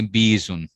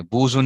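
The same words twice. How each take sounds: First: बीजुन said with a long ee sound; बीजुन with a clear long ee in the first syllable; correct reading. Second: बूजुन said with a u sound, as the wrong form; wrong reading. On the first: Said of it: "उसको कहेंगे बीजुन". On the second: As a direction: stress बूजुन with an oo vowel, as the mistake. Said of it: "बूजुन नहीं पढ़ेंगे इसको". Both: Shown as a demonstration.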